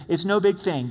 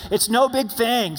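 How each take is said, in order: First: Said in the usual way. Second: Louder, higher, slow and emphatic; said like you mean it. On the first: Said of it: "say it like you mean it". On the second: Shown as a demonstration. Pastor leading congregation in a bold declaration, loud. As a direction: declare it with full conviction. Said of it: "Say it like you mean it".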